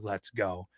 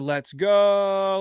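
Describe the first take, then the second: First: It is said in a mild, restrained way. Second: It is said with hyped, excited energy.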